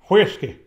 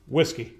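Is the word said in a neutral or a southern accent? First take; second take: southern; neutral. First: The word is said in a southern accent. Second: The word is said in a neutral accent.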